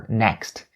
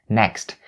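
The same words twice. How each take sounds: Both takes have the same delivery.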